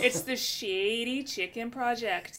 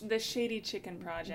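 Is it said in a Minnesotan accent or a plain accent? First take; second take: Minnesotan; plain. First: It is said in a put-on Minnesotan accent. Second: It is said in the speaker's plain accent.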